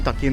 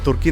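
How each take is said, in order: First: The first vowel sounds like er. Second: The first vowel sounds like oo. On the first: This is how it is said in English. "നമ്മൾ ഇംഗ്ലീഷിൽ പറയും" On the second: This is how Malayalam speakers say it. "നമ്മൾ മലയാളത്തിൽ പറയും"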